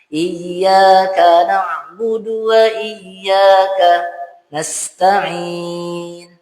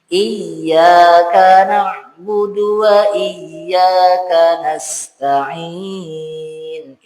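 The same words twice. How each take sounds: First: There is a full stop before nasta'in. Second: Nasta'in is only slightly set apart from ka. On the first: The speaker calls it wrong. "Itu jadi saktah. Tidak ada saktah di situ. Salah juga" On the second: The speaker calls it right. "Itu seakan-akan nasta'in itu terpisah"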